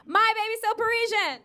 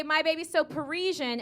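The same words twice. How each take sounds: First: Loud, high setup line to the crowd; raised, projected hype call; call-and-response shout. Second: Said in the usual way. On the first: Shown as a demonstration. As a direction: call it out for the audience to answer. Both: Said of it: "I'm gonna say".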